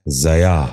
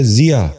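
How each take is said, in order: First: ضیاء starting with "za", "za-yaa"; wrong pronunciation. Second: ضیا starting with "zi", "zi-yaa"; correct pronunciation. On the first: Teacher showing viewers the mistake, wrong pronunciation. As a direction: say ضیاء as zayaa. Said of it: "یہ غلط تلفظ ہے". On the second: Teacher giving viewers the model, correct pronunciation. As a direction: say ضیا as ziyaa. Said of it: "درست تلفظ ہے". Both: Shown as a demonstration.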